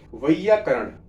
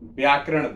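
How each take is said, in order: First: The word begins with the syllable 'vai'. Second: The word begins with the cluster 'vya'. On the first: The speaker calls it right. "अभी मैंने एक शब्द बोला" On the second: The speaker calls it wrong. "Ninety nine लोग percent लोग क्या बोलते हैं?"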